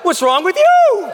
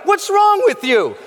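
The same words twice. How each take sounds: First: Higher, louder, slower, laughing through it; laughing comeback. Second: Higher, louder, slower: an incredulous accusing yell; mock accusing shout. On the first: Retold or imitated. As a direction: toss the question back with a laugh. He throws it back laughing. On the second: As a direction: throw it at him like he's lost his mind. Old friends question his change.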